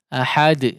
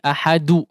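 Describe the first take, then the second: First: The final d bounces with no vowel after it. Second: The final d is followed by a 'u' vowel. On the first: The speaker calls it right. "betul-betul sukun" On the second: The speaker calls it wrong. "tidak juga seperti ahadu"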